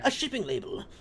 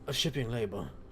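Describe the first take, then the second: First: The voice sounds fairly alert and energetic. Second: The voice sounds tired and low in energy.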